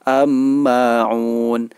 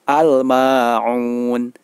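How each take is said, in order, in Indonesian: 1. Huruf 'l' menyatu menjadi bunyi 'm' yang ganda. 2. Huruf 'l' terdengar jelas sebelum 'm'. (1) "Tidak boleh dibaca" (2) "Alnya dibaca dengan jelas"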